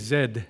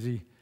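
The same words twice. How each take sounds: First: The letter is said as zed, British style. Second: The letter is said as zee, American style.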